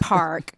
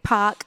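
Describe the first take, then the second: First: The R is clearly pronounced, American style. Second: The R is dropped, in her native accent.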